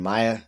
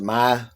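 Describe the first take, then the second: First: The name is said the non-Southern way. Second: The name is said the Southern way. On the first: "rather than" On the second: "in the South we pronounce it"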